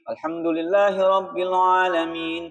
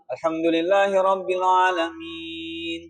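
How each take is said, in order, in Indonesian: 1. Ayat berikutnya langsung dilanjutkan tanpa jeda panjang. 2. Setelah frasa ini ada diam yang panjang. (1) "ini muala" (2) "contoh tidak muala"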